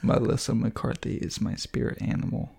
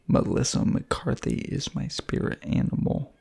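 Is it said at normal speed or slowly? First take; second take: normal speed; slowly. First: It is said at normal speed. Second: It is said slowly and deliberately.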